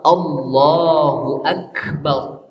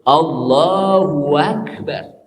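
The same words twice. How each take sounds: First: No w sound links the two words. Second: A w sound links the two words. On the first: God is the greatest. The speaker calls it right. "Yang betul apa?" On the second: It sounds like God and great. The speaker calls it wrong. "Seakan-akan di tengah-tengahnya itu ada huruf waw"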